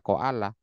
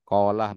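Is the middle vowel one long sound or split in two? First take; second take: split; one sound. First: The middle vowel is split into two sounds. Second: The middle vowel is one long smooth sound. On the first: The speaker calls it wrong. "bukan dibaca koalah" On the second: The speaker calls it right. "nggak dibaca"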